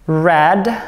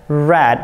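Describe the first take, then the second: First: The vowel is short, rhyming with bed. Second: The vowel is short, rhyming with bed.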